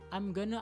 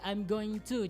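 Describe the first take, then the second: First: Going and to are merged into one word. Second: Every word is said separately in full.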